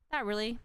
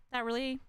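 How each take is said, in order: Both takes have the same delivery.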